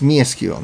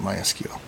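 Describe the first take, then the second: First: The first syllable sounds like 'me'. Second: The first syllable sounds like 'my'. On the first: The speaker calls it right. "it's Me SQL" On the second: The speaker calls it wrong. "not My SQL, even though that's how almost everybody pronounces it"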